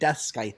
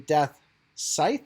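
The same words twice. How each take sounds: First: The c in scythe is pronounced. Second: The c in scythe is silent. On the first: The speaker calls it wrong. "me saying Death Scythe all the time" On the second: The speaker calls it right. "it's supposed to be Death Scythe"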